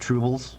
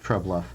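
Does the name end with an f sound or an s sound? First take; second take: s sound; f sound. First: The name ends with an s sound. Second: The name ends with an f sound. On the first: The speaker calls it wrong. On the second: The speaker calls it right.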